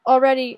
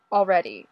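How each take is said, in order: First: Already stretched out, loud and impatient; impatient drawn-out already. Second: Said in the usual way. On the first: Acted. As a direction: drawl Already, louder and higher.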